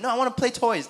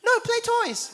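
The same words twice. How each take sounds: First: Put-on higher, complaining little-boy voice; whiny toddler. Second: Put-on very high, babyish two-word whine; toddler voice. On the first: Dad imitating his son refusing to leave, mock whine. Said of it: "He's like". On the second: Dad showing how his toddler really says it, high babyish whine. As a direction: squeak it like a two-year-old refusing. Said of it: "He doesn't say it like that".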